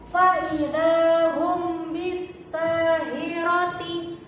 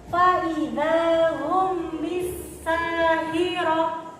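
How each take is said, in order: First: The last word keeps its full -ti ending. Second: The last word ends in a soft h sound. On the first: The reading continues without stopping. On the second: The reader stops on this word.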